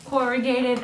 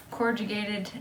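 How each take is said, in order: First: Retry "corrugated" cleanly as "cor-uh-gated", a little higher; corrected pronunciation. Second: "corrugated" with a j sound, like "cord-jugated"; mispronounced word. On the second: Crafter unsure of the word, mispronouncing "corrugated" as "cor-juh-gated". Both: Real, not acted. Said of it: "I don't actually know that word".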